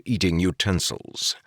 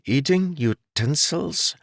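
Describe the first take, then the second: First: Said in the usual way. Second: Slow, high, baffled repeat of eating utensils; puzzled echo. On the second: A narrator's reading. Jarek hearing about forks for the first time, baffled. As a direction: turn the strange phrase over, confused.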